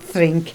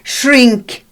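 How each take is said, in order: First: The word begins with a "th" sound. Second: The word begins with an "sh" sound. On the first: The speaker calls it wrong. "not thrink" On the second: The speaker calls it right. "Shrink, not thrink, shrink"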